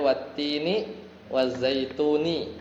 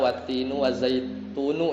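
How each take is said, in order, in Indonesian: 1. Setiap kata berakhir dengan vokal 'i'. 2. Setiap kata berakhir dengan vokal 'u'. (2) "enggak dibaca"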